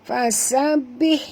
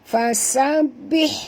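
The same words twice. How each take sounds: No difference in how they are said.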